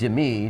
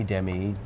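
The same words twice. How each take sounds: First: Demi as "dih-MEE"; alternative name pronunciation. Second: Demi as "DEM-ee"; alternative name pronunciation. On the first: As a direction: say Demi with weight on the last syllable. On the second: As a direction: say Demi with weight on the first syllable. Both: Shown as a demonstration. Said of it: "whatever it is".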